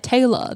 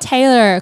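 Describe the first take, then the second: First: It is said in an Australian accent. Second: It is said in an American accent. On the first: "I hate it with an Australian" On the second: "I have to say it with an American accent"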